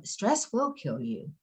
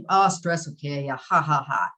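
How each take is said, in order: First: Said in the usual way. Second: Joking quote capped by a put-on laugh; mock laughing dismissal. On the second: Speaker imitates people laughing off stress, mock dismissive. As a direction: brush it off with fake ha-has. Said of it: "we all laugh. I'm, I, I've laughed".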